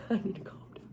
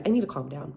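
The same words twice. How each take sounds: First: Breathy whisper through a laugh. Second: Low, soft aside to herself; telling herself to calm down. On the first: Laughing at her own rant, whispering to herself to calm down. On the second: Muttering to herself mid-rant to calm down. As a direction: pull it down and steady yourself. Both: Real, not acted.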